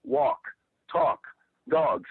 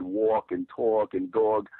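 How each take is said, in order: First: "walk", "talk", "dog" with open, unrounded "ah" vowels, no New York sound; accent ironed out. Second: Drawn-out New York vowels in "walk", "talk" and "dog"; New York accent. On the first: Best friend correcting a kid's New York accent, "walk", "talk", "dog" with accent ironed out. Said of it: "he ironed my shit out". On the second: Showing how they said it as a little kid, New York accent on "walk", "talk", "dog". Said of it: "still has the New York accent". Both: Shown as a demonstration.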